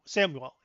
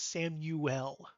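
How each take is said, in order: First: The U sound is reduced and quick. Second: The U sound is clearly enunciated. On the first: The speaker calls it wrong. "It's not" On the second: The speaker calls it right. "He enunciates the U"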